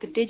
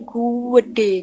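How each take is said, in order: First: It is said plainly, with no added vowel. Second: A long 'u' sound is added before it. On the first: It simply means big. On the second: It stresses that something is very big.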